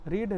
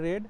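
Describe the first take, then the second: First: The vowel is long, like 'reed'. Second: The vowel is short, like 'red'. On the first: The action happens in the present. "Present টেন্সে গেলে সে হয় হচ্ছে রিড" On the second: The action happened in the past. "But একে pronounce করবে হচ্ছে আরি রেড"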